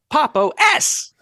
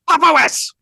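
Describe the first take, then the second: First: The name is said at moderate volume. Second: The name is shouted very loudly. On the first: The speaker calls it wrong. "Decidedly not" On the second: The speaker calls it right. "Better. ... so it's not so fucking loud"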